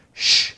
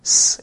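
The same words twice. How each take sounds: First: "sh" said as a sustained hush; a clear isolated "sh"; sh sound. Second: "s" said as a sustained hiss; a clear isolated "s"; s sound. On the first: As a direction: demonstrate the "sh" sound on its own. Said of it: "prevented them from saying". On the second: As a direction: demonstrate the "s" sound on its own. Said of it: "instead of". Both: Shown as a demonstration.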